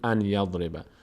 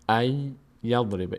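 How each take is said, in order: First: The n sound is clearly pronounced before the y. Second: The n sound merges into a doubled y sound. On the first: The speaker calls it wrong. "نگین ان یضرب" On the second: The speaker calls it right. "نون تبدیل میشه به یا"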